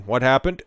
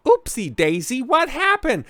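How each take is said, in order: First: Said in the usual way. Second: Much higher, sing-song oopsie voice; mock pollster. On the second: Mocking pollsters who missed Trump, much higher and sing-song. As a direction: play a clueless pollster caught out.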